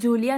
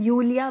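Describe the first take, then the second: First: The name begins with a J sound. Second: The name begins with a Y sound. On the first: The speaker calls it wrong. "जूलिया नहीं" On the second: The speaker calls it right. "यूलिया बोलोगे"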